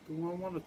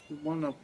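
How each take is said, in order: Both takes have the same delivery.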